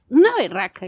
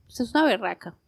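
First: BERRACA repeated louder, with punch; emphatic repeat. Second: Said in the usual way. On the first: Retold or imitated. ("Una berraca" recalcado, más fuerte)

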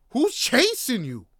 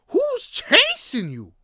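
First: Loud, high, drawn-out question; exasperated shout. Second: Very high, loud, stretched-out yell; escalated exasperated yell. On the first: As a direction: call out slowly to a reckless driver. Exasperated outburst at reckless driver. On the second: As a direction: yell it slowly at the top of your pitch. Repeats the outburst, escalating. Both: Acted.

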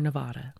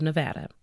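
First: Nevada with a broad "ah" in the middle; outsider's Nevada pronunciation. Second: Nevada with a short flat A as in "cat"; local Nevada pronunciation. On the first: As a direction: say Nevada as ne-VAH-duh. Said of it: "We say Nevada". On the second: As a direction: say Nevada as ne-VAD-uh. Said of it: "I think they say Nevada". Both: Shown as a demonstration.

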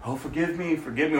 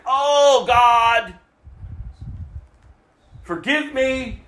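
First: Tossed off low and much softer; flippant. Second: Genuine repentance. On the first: Preacher mocking cheap repentance, flippant mumble. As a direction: mumble it carelessly, like it means nothing. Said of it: "We're not flippant about it". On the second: Preacher acting out true repentance, earnest plea. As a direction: beg God earnestly for forgiveness. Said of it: "It's a genuine repentance". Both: Retold or imitated.

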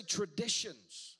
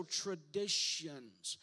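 First: Said in the usual way. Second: TRADITIONS drawn out slowly, each syllable emphasized. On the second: Shown as a demonstration. Preacher has the congregation say it like they're from Louisiana, TRADITIONS very slow. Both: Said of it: "say it again very slow".

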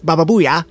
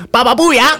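First: Said in the usual way. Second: Goofy catchphrase. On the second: Retold or imitated. Repeating a movie catchphrase.

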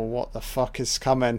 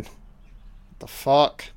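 First: Said in the usual way. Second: Drawn out, very slow and stunned; slow what the fuck. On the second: Real, not acted. Reacting to a horror film scene, dragged out very slowly. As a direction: stretch every word in disbelief.

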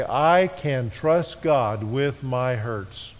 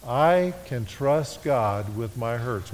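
First: Slow, deliberate statement of faith; slow and weighty, word by word; slow declaration. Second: Said slowly along with the congregation; slow congregational repeat. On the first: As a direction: spell it out slowly for the congregation to repeat. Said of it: "I must be able to say". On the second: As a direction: lead the room through it slowly. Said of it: "Would you read that with me?". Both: Shown as a demonstration.

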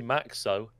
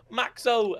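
First: Said in the usual way. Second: Imitated shout. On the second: A mate spotting him as he walks over, imitated shout. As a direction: call it out like a mate greeting you. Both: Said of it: "he, like, shouts it".

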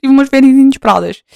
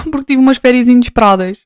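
First: Férias stressed, louder and higher; emphatic repeat. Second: Said in the usual way. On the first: Shown as a demonstration. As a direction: punch the word férias.

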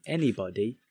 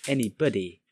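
First: ANYBODY with a full O, "any-BOD-ee"; Anybody, rounded O in body; pronounced as written. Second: ANYBODY as "any-buddy"; anybody with the O weakened to 'uh'; reduced vowel. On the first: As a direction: say "Anybody" with "body" fully sounded. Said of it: "pronounced as written". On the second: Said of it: "not anybody". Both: Shown as a demonstration.

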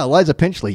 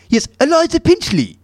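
First: Said in the usual way. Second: Very high, affected cartoon voice; Stewie. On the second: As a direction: announce the name in a high-pitched character voice. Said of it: "Well, Stewie".

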